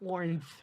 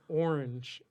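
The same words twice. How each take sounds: First: The word is said with a lisp. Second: The word is said smoothly and normally. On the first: A girl with a lisp said it. "she was just like had like a lisp" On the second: The speaker's own plain reading. "And I'd be like"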